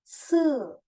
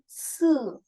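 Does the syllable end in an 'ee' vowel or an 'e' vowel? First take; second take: e; e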